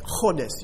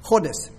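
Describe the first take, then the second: First: "chodes" with a throaty, scraped ch at the start, like clearing a fish bone; guttural Hebrew sound. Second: "Chodes" said alone, ch scraped from the back of the throat, falling; guttural Hebrew sound. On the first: Pastor teaching his congregation the Hebrew word, throaty guttural ch. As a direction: rasp the ch of "chodes" in the back of the throat. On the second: Pastor repeating the Hebrew word for the congregation, guttural ch. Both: Shown as a demonstration. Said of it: "it's a guttural sound".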